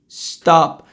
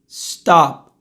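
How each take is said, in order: First: The word ends cleanly on the p. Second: The word ends cleanly on the p.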